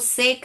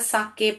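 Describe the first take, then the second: First: It is said as one syllable, 'sek'. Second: It is said as two syllables, 'saa-ke'. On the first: The speaker calls it wrong. "इसको सेक नहीं पढ़ते हैं बेटा" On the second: The speaker calls it right. "साके पढ़ते हैं"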